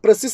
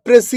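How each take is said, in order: First: പ്രസിസ് with the final s sounded, pray-sis; the common mistake, പ്രസിസ് ending in a hissed s; wrong pronunciation. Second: പ്രസി as pray-see with a silent final s; പ്രസി, the French way, no s at the end; correct pronunciation. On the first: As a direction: read പ്രസിസ് the wrong way, voicing the last s. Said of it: "എന്ന് വായിക്കരുത്". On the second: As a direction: say പ്രസി and stop on the ee. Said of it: "എന്നാണ് അത് വായിക്കേണ്ടത്". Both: Shown as a demonstration.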